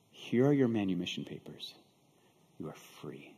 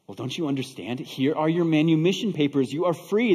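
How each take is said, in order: First: Low, hushed and solemn; quiet, measured pronouncement; gentle announcement. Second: Emphatic, voice lifted to convince; insistent, full-voiced explaining; urgent insistence. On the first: Acted. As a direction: softly hand over the news, fading to near whisper. Buyer gently hands over freedom papers. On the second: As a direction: press the point so it gets through. Buyer repeats it, urging her to understand.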